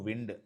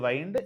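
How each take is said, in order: First: The vowel sounds like 'ih'. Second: The vowel sounds like 'eye'. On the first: It is the noun meaning moving air. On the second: It is the verb meaning to turn or coil.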